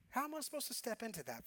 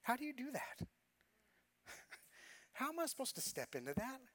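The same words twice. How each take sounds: First: Said in the usual way. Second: Softer, higher question with a laugh in it; laughing disbelief. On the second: Real, not acted. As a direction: laugh at how impossible it seemed. Laughing disbelief at his situation.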